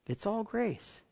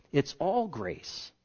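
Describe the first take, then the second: First: Softer, higher echo of the refrain; a quiet second all grace; 1 hushed repeat. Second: Slow, deliberate refrain; drawn-out all grace. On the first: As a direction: let it fall away gently. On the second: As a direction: lay each word down slowly. Slowed repeated refrain. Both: Real, not acted.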